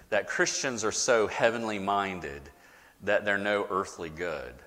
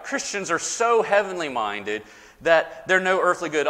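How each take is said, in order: First: Said in the usual way. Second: Put-on the old saying, a bit higher and louder, set apart; quoting the saying. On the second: Shown as a demonstration. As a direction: hold it up as the saying people repeat. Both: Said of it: "You've heard that, right?".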